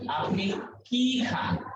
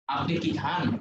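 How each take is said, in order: First: কি is stressed, as a what-question. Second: কি is unstressed, as a yes-no question.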